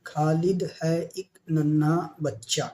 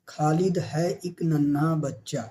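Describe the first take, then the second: First: Slow reading aloud. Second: Said in the usual way. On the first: Shown as a demonstration. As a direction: read the line slowly and clearly. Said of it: "teacher reads sentence slowly". (آہستہ پڑھ کر سنانا) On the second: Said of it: "teacher repeats sentence".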